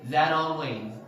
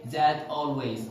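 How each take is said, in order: First: "that always" run together like "thadalways"; American linking in "that always"; linked with soft D. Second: "that always" with a true T in "that"; hard T, unlinked. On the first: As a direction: connect "that always" with a tapped T. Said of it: "They connect words". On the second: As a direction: keep "that" and "always" as separate words. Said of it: "They didn't say that always". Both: Shown as a demonstration.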